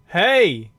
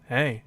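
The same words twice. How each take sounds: First: It is called out loudly. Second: It is said quietly, close up.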